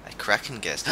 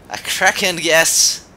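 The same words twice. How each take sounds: First: Said in the usual way. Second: Loud, slow and higher-pitched; pun exclamation. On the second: Shown as a demonstration. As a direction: proclaim the pun with drawn-out relish. Seizes on own accidental pun.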